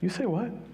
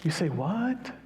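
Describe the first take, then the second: First: It is curt, skeptical and unwelcoming. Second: It is curious, open and stretched out.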